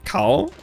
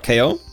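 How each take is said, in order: First: The name sounds like the single syllable 'cow'. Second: The name sounds like the letters K and O. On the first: "It can be either Kao" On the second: "they prefer Ko, because, well, it's a wordplay. K O, knockout"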